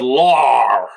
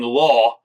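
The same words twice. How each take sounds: First: The word is pronounced in an exaggerated, drawn-out way. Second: The word is pronounced in a normal, plain way. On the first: "he said law" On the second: "Instead of saying law"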